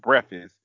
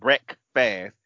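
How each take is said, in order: First: Some consonants in the word are dropped. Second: Every consonant in the word is clearly pronounced. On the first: The speaker calls it wrong. "because I said breakfast" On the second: The speaker calls it right. "before you can hear the consonants in his word"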